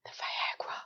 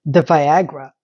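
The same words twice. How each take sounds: First: Hushed, naughty reveal; conspiratorial whisper. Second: Voiced aloud, pitched well down; low-voiced reveal. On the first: Pretend. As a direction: whisper it like a secret. Mock-secret whisper, then said aloud. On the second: Real, not acted. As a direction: say it in a low register. Repeats the whispered word aloud.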